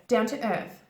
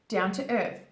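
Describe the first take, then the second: No difference in how they are said.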